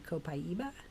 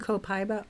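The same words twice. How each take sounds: First: It is pronounced the Brazilian Portuguese way. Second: It is pronounced the usual English way.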